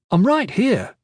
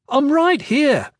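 First: Put-on a mildly annoyed boy; irritated. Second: Higher, slower, pressing the point; insistent repeat. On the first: Kip reminding the adults he's present, irritated. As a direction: cut in, a little put out. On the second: Acted. Kip insisting a second time that he's here, louder. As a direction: say it again so they finally hear. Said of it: "Kip said".

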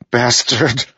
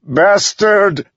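First: High-pitched, angry spit of a word; spat curse. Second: Very high, loud enraged scream; furious yell. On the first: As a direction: spit it out at the enemy in anger. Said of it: "Adolin spat". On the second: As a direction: yell it out in grief-stricken rage. Grieving son curses father's attacker. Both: A narrator's reading.

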